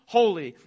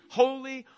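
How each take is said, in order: First: "holy" louder with a falling close; "holy" punched loud, falling; final emphasis. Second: "holy" lifted higher; "holy" sung out higher in awe; rising emphasis. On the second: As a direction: lift "holy" up as the repetition builds. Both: Real, not acted. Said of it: "God is holy".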